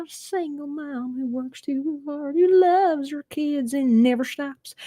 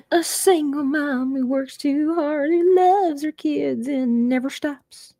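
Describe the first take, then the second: First: High, slow Oklahoma twang imitating [name]; [name]'s thick Oklahoma accent, high and slow. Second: High, slow Oklahoma twang imitating [name]; [name]'s Oklahoma twang, high and slow. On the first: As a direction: drawl the line like [name]. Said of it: "it's very". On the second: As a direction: drawl it out like [name] singing. [name] moment, quoting song.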